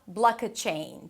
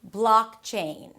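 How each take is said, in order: First: An extra vowel sits between k and ch. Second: The k runs straight into the ch. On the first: The speaker calls it wrong. "But not block-a-chain. Don't add any vowels in between" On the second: The speaker calls it right. "You need to connect the k to the ch"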